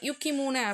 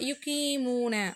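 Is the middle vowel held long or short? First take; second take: short; long. First: The middle vowel is said short. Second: The middle vowel is held long. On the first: The speaker calls it wrong. "அப்படின்னு சொல்லலை" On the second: The speaker calls it right. "அந்த இடத்துல ஒரு நெடில் வருது பாருங்கள், நீட்டுறாங்க"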